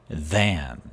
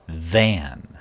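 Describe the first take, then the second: Both takes have the same delivery.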